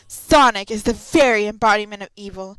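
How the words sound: It is said in a dramatic voice.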